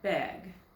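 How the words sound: The word is said in a Minnesota accent. "But up in Minnesota, where my husband's from, they would say bag"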